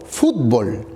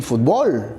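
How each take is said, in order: First: Fútbol stressed on the first syllable, FÚT-bol; fútbol with the weight up front, FÚT-bol; Peruvian stress. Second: Fútbol stressed on the last syllable, fut-BOL; fútbol with the stress moved to the final syllable, fut-BOL; Mexican stress. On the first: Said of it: "Nosotros decimos". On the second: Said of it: "los mexicanos dicen". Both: Shown as a demonstration.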